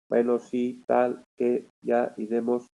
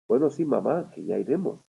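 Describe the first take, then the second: First: It sounds flat and robotic, like an early computer. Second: It sounds natural, with normal expressive intonation.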